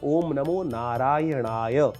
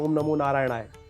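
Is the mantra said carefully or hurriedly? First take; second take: carefully; hurriedly. First: The mantra is said slowly and carefully. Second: The mantra is said quickly and hastily. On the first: The speaker calls it right. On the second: The speaker calls it wrong.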